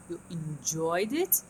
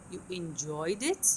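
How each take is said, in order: First: Slow, rise landing on it; slow rising demo. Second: Slow, stress on enjoyed, rising at the end; teacher models You enjoyed it slowly; slow intonation demo. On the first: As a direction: draw out You enjoyed it with a final rise. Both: Shown as a demonstration. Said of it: "before the important word".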